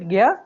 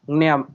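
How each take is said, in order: First: It is said as g plus y, no n. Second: It is said as g, n, then y. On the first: "I typically pronounce it" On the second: "I sometimes also go with the"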